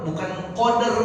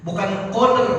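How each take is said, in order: No difference in how they are said.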